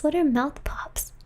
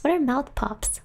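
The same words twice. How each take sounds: First: Whispered. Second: Said in the usual way. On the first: Shown as a demonstration.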